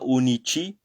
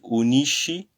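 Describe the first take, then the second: First: The middle consonant is a 'ch' sound. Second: The middle consonant is an 'sh' sound. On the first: The speaker calls it wrong. "C'est pas unici" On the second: The speaker calls it right. "c'est unisci"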